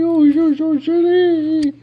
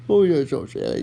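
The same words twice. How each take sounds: First: Very high, slow, drawn-out coo; high baby talk. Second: Said in the usual way. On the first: Acted. Owner cooing to his dog, high and slow.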